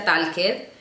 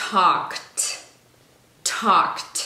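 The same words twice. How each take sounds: First: "talked" in two syllables, tal-ked; wrong, E sounded. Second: "talked" as tawkt, E dropped; one slow syllable "talked", ending on crisp T; final T sound. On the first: Teacher showing the mistake, "talked" read as spelt. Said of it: "no se pronuncia talked". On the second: Teacher showing the correct way, "talked" ending in T. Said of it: "con una T al final". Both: Shown as a demonstration.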